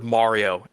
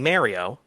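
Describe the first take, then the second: First: The name is said in a standard way. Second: The name is said with a New York pronunciation. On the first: The speaker calls it right. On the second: The speaker calls it wrong.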